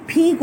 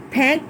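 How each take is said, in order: First: پھینک said as "phink" with a short ee vowel; with small e. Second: پھینک said as "phenk" with an open e vowel; with big e. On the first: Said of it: "چھوٹی اے ہے تو". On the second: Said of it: "مطلب ہے بڑی اے آ رہی ہے". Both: Shown as a demonstration.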